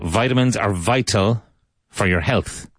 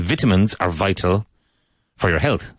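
First: It is said with an American pronunciation. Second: It is said with a British or Irish pronunciation. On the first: "as he said" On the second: "I would say"

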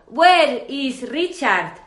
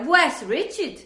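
First: Richard is said with a Spanish accent. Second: Richard is said with an English accent. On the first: "yo hubiera dicho ... mi Richard español" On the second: "Eso era un Richard inglés"

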